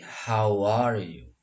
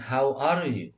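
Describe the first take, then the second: First: Slow "how are you" with "how are" fused as "howar"; words linked. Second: "how are you" with each word kept apart; separate words. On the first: Teacher shows the preferred greeting, words linked. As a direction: glide from "how" into "are" in one piece. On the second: Teacher shows the habit to avoid, separate words. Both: Shown as a demonstration. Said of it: "Jadi jangan dibiasakan".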